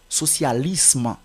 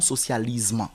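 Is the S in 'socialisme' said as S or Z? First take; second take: S; Z. First: The S is said as a hissing S. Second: The S is said as a buzzing Z. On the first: The speaker calls it right. "la lettre S ici ne se prononce pas comme Z" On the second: The speaker calls it wrong. "et non"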